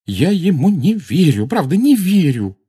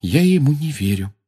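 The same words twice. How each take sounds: First: High, loud, overwrought voice; agitated disbelief. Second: Higher-pitched, barely controlled disbelief; unsteady disbelief. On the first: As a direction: insist in disbelief, losing control of the voice. (взволнованно, не владея голосом) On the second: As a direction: say it as if the voice won't quite obey. (голос плохо слушается) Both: A narrator's reading. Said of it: "Голос ещё плохо повиновался ей".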